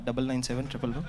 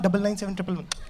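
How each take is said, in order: First: It is said in a low, cool tone. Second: It is said in an excited, eager tone.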